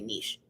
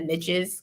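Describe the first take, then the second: First: The word does not rhyme with 'riches'. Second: The word rhymes with 'riches'. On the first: "a lot of people say niche" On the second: "because it rhymes"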